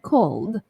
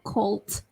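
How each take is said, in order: First: The word ends with a d sound. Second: The word ends with a t sound. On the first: The speaker calls it right. "but cold, cold. L, and then D" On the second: The speaker calls it wrong. "not cold, not T"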